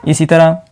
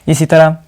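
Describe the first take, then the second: The two takes are said the same way.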